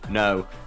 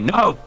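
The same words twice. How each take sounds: First: The word is said flatly, without extra force. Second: The word is said loudly, with strong emphasis. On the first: The speaker calls it wrong. "We we can't ever just go no" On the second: The speaker calls it right. "It's got to be no"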